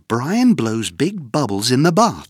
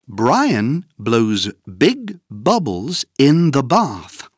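First: It is said faster than before. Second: It is said at a slow, normal pace.

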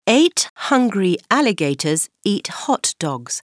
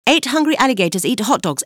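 First: It is said at a normal speed. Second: It is said very fast.

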